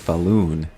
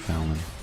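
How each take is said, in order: First: The last syllable has a long 'loon' sound. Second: The last syllable has a short 'lon' sound.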